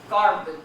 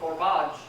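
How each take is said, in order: First: The second syllable is swallowed; the first is stressed. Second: The first syllable is swallowed; the second is stressed. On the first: The speaker calls it right. "Swallow the second syllable" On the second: The speaker calls it wrong. "Just swallow that first syllable"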